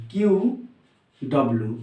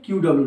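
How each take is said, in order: First: Each item separate, with a pause. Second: Said in the usual way. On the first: Shown as a demonstration. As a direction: dictate "Q ... W" as if writing. Dictates while writing it out. (लिखते हुए, अलग-अलग बोलना)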